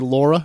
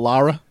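First: The name is said in a New Jersey accent. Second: The name is said in a standard accent. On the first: "I was born and raised in Jersey. So I used to talk like this" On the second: "instead of Lara"

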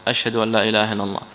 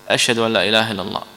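No difference in how they are said.

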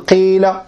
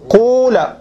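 First: The first vowel is a pure i sound. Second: The first vowel is a pure u sound. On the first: "لغة الكسر الخالص" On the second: "بالضم الخالص"

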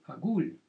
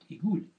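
First: The word begins with an 'a' vowel. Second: The word begins with an 'i' vowel. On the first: "говорят также, агуль" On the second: "Говорят, игуль"

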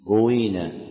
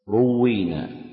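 First: First vowel u, with a single w. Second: First vowel u, with a doubled w. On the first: "بضم الراء وكسر الواو بلا تشديد" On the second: "ضم الراء وكسر الواو مشددة"

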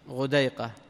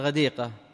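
First: It is said with vowels u then ay: ghudayqa. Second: It is said with vowels a then i: ghadiqa. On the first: It is the diminutive form of the word. "على التصغير" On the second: It names heavy, abundant rain. "بكسر الدال وفتح العين"

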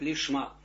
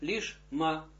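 First: A faint vowel links the sh into the m. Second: The sh stops fully before the m. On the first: The speaker calls it wrong. "А нельзя говорить лишма. Мы так говорим, конечно, на уроках" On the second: The speaker calls it right. "надо лишма отделить это все"

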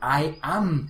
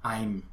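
First: Both words are said separately in full. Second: The two words merge into one syllable. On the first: "¿Cómo se contrae el I am?" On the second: "¿Cómo se contrae el I am?"

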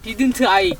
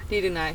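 First: It is said with a Korean-style accent. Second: It is said with a native English accent. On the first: The speaker calls it right. "그렇지" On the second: The speaker calls it wrong. "자꾸 본토 발음으로 하지 말아줄래요?"

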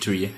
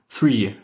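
First: The word begins with a hard 't' sound. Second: The word begins with a soft 'th' sound. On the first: The speaker calls it wrong. "nicht Tree" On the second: The speaker calls it right. "Three, nicht Tree"

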